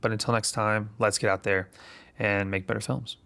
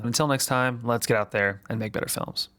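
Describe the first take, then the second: First: It is said with lower energy. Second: It is said with more energy.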